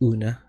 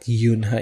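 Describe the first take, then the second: First: The name starts directly with a vowel. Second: The name starts with a 'y' sound. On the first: The speaker calls it right. "it's Una" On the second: The speaker calls it wrong. "it's not Yunha"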